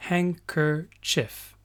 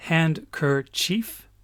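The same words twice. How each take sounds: First: "handkerchief" said slowly as hank-er-chif, no d; teacher models the spoken "handkerchief", slow and clear; real pronunciation. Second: Handkerchief said slowly, every letter sounded, d included; teacher sounds out "handkerchief" as it is written, slowly; spelled-out pronunciation. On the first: Teacher showing how it is really said, "handkerchief" drawn out. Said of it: "mais on dit". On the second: Teacher contrasting spelling and speech, says "handkerchief" letter by letter. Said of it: "on écrit". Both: Shown as a demonstration.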